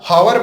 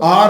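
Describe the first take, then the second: First: The word begins with an audible h sound. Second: The word begins directly with a vowel sound. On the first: The speaker calls it wrong. "लेकिन ये हावर नहीं दोस्तों" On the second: The speaker calls it right. "आ से शुरू होता है"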